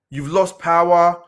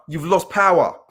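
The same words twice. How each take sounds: The two takes are said the same way.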